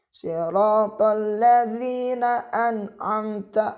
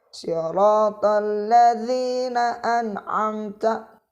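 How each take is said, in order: Both takes have the same delivery.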